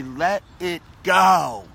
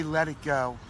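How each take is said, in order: First: Slow, drawn-out and louder, letting it all go; slow release. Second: Said in the usual way. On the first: Shown as a demonstration. Guiding viewers to release old pain, slow and drawn out. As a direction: model the phrase slowly for the viewers. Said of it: "I want you to just say". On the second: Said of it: "And as you say".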